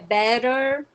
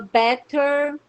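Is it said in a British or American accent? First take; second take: American; British. First: It is said with an American accent. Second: It is said with a British accent.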